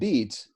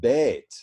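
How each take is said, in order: First: The vowel is a long 'ee' sound. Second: The vowel is an 'ay' sound. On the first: This is the present-day pronunciation. "the word right below it, beat, as in beetroot" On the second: This is the pronunciation before the Great Vowel Shift. "we used to say as bait"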